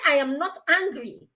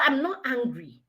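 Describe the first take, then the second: First: High-pitched, emphatic denial; mock-indignant, escalating denial; acted angry insistence. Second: Acted denial, fairly restrained; understated defensive retort; mildly angry denial. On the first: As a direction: insist on every word, hotly. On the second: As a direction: deny the anger with slight irritation. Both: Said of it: "You're obviously angry now".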